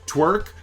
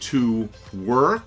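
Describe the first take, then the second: First: It is said fast, merged into one syllable. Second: It is said slowly as two separate syllables. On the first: "Say it faster" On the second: "Say it"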